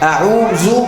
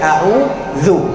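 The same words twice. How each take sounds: First: The middle consonant is a plain z sound. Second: The middle consonant is a voiced th sound. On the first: The speaker calls it wrong. "अऊज़ु नहीं" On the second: The speaker calls it right. "बल्कि अऊज़ु, राइट"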